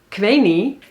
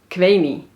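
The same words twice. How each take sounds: No difference in how they are said.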